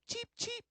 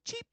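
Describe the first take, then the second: First: Tiny high chirps; chirping cricket voice. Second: Said in the usual way. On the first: Shown as a demonstration. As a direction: squeak it out like a bird. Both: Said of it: "Can you go like this?".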